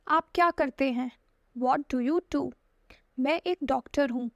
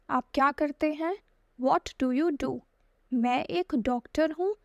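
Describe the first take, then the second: No difference in how they are said.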